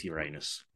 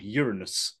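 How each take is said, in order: First: Uranus said as yoo-RAY-nus; Uranus stressed on the second syllable, yoo-RAY-nus; long middle syllable. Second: Uranus said as YOOR-uh-nus; Uranus stressed at the front, YOOR-uh-nus; stress on first syllable. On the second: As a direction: say Uranus with a short, weak middle syllable. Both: Acted. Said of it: "No, it's Uranus".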